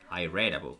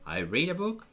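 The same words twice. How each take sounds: First: Read has a short e vowel. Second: Read has a long ee vowel. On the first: The reading happened in the past. "yo leí un libro" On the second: The reading happens now. "yo leo"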